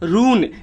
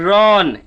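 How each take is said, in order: First: The vowel is a long 'oo' sound. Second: The vowel is an open 'aw' sound. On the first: The speaker calls it wrong. "लेकिन ये जो एक गलत तरीका है" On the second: The speaker calls it right. "इसको हम लोग पढ़ते हैं आर यू एन"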